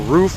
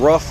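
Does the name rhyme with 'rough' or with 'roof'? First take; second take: roof; rough. First: The vowel is long, rhyming with 'roof'. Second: The vowel is short, rhyming with 'rough'. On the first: "rough or roof, however you want to pronounce it" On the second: "rough or roof, however you want to pronounce it"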